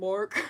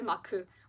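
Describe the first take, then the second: First: The name is said with an American accent. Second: The name is said with a Korean pronunciation. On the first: "I think it's because my accent is so American" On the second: "because I speak Korean, like, sometimes I don't even say [name], I say Maku"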